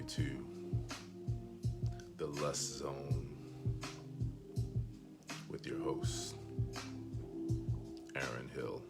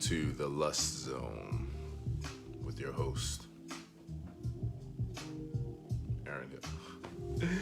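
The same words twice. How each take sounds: First: It is said in a put-on, performed voice. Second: It is said in a natural, everyday voice. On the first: "I'm going to do this entire live stream in this voice right here" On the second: "No, I'm just kidding"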